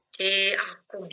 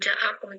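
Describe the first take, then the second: First: The first vowel leans toward an 'e' sound. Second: The first vowel is an open 'a' sound. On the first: This is the reading of this tradition. "J-nya dipanjangin menjadi C" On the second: This is not the reading of this tradition. "dibacanya bukan ja'akum"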